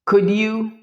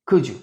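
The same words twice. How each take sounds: First: Said in the usual way. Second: Could you as "couldju"; couldju, D and Y fused. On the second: Shown as a demonstration. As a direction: blend D and Y into J. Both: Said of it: "okay?".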